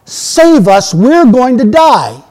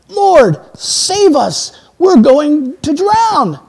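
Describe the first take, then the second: First: Loud, high, drawn-out cry for rescue; acted scream for help. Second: High-pitched cry for rescue, drawn out at the end; acted desperate plea. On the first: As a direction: scream out emphatically as a panicked sailor. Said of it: "they scream out". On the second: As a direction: plead to be saved, voice raised high. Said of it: "they were far more emphatic than that".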